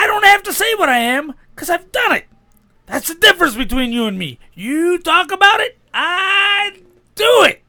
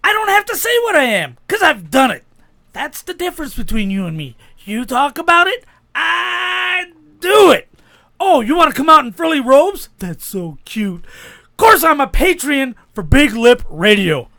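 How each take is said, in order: First: Raised, shouting wrestler voice; wrestling promo. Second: High, shouted wrestling promo. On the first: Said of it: "a wrestling promo". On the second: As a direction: taunt a rival like a wrestler. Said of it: "a promo against Ric Flair". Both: Pretend.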